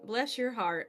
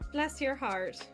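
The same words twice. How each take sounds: First: It is said in the speaker's native accent. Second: It is said in an Irish accent. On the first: The speaker calls it right. "my native accent was like" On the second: The speaker calls it wrong. "That was weird to say in an Irish accent"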